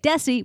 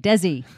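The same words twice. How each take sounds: First: The middle consonant is a hissing s sound. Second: The middle consonant is a buzzing z sound. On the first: The speaker calls it wrong. "my name is spelled with an S, but we don't say Desi" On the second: The speaker calls it right. "we say Desi"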